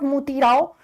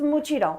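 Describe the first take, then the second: First: The middle syllable sounds like 'tee'. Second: The middle syllable sounds like 'chee'. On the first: The speaker calls it wrong. "This is not Muti Rao" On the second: The speaker calls it right. "this is Muchi Rao"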